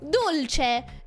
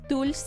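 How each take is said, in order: First: The word is said with an Italian pronunciation. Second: The word is said with a Spanish pronunciation. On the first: The speaker is imitating people who assume it is Italian. The speaker calls it wrong. "ah, Italian" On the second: It is an Argentinian term. The speaker calls it right. "no, no, it's Argentinian"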